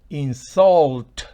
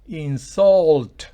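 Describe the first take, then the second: Both takes have the same delivery.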